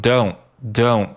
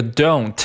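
First: "don't" ending on n, no t burst; unreleased T. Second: Said in the usual way. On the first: Shown as a demonstration. Teacher drilling learners, slow "don't" with unreleased t. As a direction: hold back the t of "don't", slowly. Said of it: "这个t失去爆破，读成". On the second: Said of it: "这个t失去爆破".

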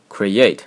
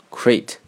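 First: Create said correctly as cre-ATE, two syllables. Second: Crate as one syllable, imitating a learner's misreading of create. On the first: Shown as a demonstration. Teacher citing an example word for learners, create pronounced as two syllables. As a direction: say create with two separate vowels, kree-AYT. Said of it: "实际上是第两个音节". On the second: Teacher showing how many students misread create, said as one-syllable crate. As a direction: merge the vowels of create into a single-syllable crate. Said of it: "很多学生把这个单词读成".

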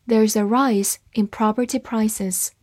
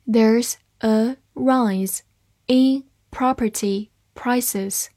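First: Said in the usual way. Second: Word by word, slowly, with gaps; slow reading. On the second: Shown as a demonstration. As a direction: read slowly, each word on its own. (慢读，一词一顿) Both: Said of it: "慢读一遍".

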